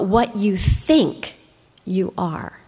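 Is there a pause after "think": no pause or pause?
pause. There is a pause after think before you are. Whatever you think about is what you become. "but what you think, what you meditate on, ... that is what you are"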